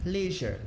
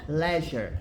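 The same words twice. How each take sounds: First: "Leisure" with "lee" as in see, LEE-zhur; American leisure. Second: "Leisure" with "le" as in let, LEH-zhuh; British leisure. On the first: Teacher echoing the dictionary's American take, "Leisure" with long "ee". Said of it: "a pronúncia americana é essa aqui". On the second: Teacher echoing the dictionary's British take, "Leisure" with short "e". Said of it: "tem essa pronúncia aqui". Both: Shown as a demonstration.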